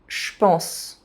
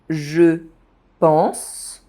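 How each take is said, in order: First: The vowel is dropped, je sounds like sh. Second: The vowel of je is fully pronounced.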